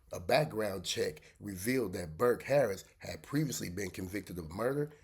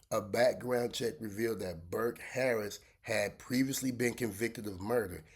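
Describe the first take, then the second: No difference in how they are said.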